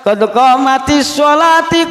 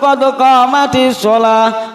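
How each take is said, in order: First: The last word ends with an -ati sound. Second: The last word ends with an -ah sound.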